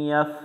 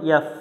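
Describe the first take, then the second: Both takes have the same delivery.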